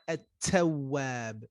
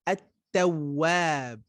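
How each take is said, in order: First: The t is released with a puff of air. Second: The t is released cleanly without a puff of air. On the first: The speaker calls it wrong. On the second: The speaker calls it right.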